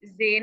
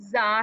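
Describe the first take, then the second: First: जे as "zay"; buzzed z and an "ay" vowel in जे; wrong Urdu reading. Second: जा as "zaa", open vowel; buzzed z and long "aa" in जा; Arabic letter name. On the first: Teacher warning students, Urdu-style "zay". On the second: Teacher modelling the letter, open "zaa". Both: Shown as a demonstration. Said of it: "जे नहीं पढ़ना".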